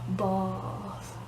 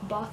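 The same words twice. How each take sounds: First: The word is said slowly and drawn out. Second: The word is said quickly in one short syllable. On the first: This is how others repeat it back. The speaker calls it wrong. "they always repeat it back way slower than I actually said it" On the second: This is how the speaker really says it. The speaker calls it right. "bath is one syllable. It takes like one second to say"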